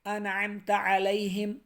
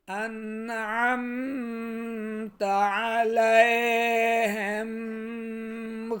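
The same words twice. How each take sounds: First: انعمت علیہم clean, no ghunna on the نون; no nasal. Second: انعمت علیہم with an exaggerated nasal hum on the نون, very slow; mock wrong nasal recitation; wrong nasal ghunna. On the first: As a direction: say انعمت without nasal hum. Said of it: "غنہ مت کیجئے نون پر". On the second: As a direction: overdo the nasal on انعمت to show the mistake. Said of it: "غنہ کر رہے ہوتے ہیں". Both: Shown as a demonstration.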